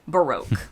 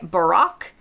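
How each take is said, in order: First: It is said with an American pronunciation. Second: It is said with a British pronunciation. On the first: "in the U S, we say" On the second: "In the U K, they say"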